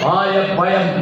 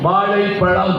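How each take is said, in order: First: The consonants are said as a plain 'y' sound. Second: The consonants are said with a retroflex 'zh' sound. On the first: The speaker calls it wrong. "அவன் வாயப்பயம் அப்படின்னு இருக்கான்" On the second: The speaker calls it right. "வாழைப்பழம் அப்படி சொல்லணும்"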